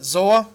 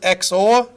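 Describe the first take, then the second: First: It begins with a 'z' sound. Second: It begins with an 'eks' sound. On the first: "You might pronounce it Z O R" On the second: "I pronounce it X O R"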